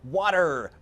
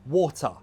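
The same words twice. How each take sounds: First: An American accent with the final r sounded. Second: A British accent with no final r sound. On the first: "in American English, they're like" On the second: "Whereas British English, usually it's more like"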